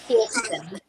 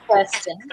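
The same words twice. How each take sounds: First: The name is said with the American pronunciation. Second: The name is said with the local pronunciation. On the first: "mostly in America they say Kirsten" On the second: "mostly here we say Kirsten"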